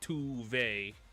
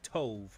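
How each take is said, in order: First: The first vowel sounds like 'oo'. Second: The first vowel sounds like 'oh'. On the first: The speaker calls it wrong. "not Tuve" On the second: The speaker calls it right. "That is Tove"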